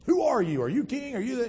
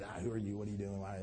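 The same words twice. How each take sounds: First: High, insistent interrogation; peppering questions. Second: Soft, low mock interrogation; peppering questions. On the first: Acted. Pilate pressing a silent Jesus, high insistent peppering. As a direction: fire questions at someone who won't answer. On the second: Pilate questioning a silent Jesus, lightly acted peppering. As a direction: rattle off questions under the breath. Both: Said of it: "peppering him with questions".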